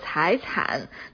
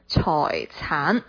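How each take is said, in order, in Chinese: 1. 它的发音用的是普通话的声母、韵母和声调。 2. 它的发音用的是粤语的声母、韵母和声调。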